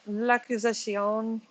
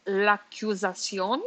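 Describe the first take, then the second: First: L'accusation said the English way, "luh-kiz-a-sion", slowly; l'accusation halting and anglicized; unsure French. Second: L'accusation said the French way, "la-kyu-za-sion", slowly with a rising end; retry l'accusation more French, asking; l'accusation in a careful French accent; retried French. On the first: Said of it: "am I saying that right?". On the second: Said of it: "L'accusas-, oh, I can't say it any other way". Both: Real, not acted.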